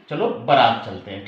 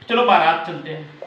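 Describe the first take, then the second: First: बारात as buh-RAAT, lower pitch; short first A. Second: बारात with long baa at the start; wrong long A. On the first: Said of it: "सही expression है". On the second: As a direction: say बारात as BAA-raat within the phrase. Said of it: "बारात नहीं". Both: Shown as a demonstration.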